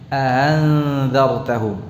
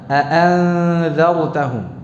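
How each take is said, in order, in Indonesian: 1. Hamzah kedua dilunakkan dan diringankan. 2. Kedua hamzah dibaca penuh dan jelas. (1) "hamzah keduanya dengan tasjil, eh, tashil" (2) "Kedua hamzahnya, baik yang pertama maupun yang kedua, dibaca dengan jelas, tahqiq"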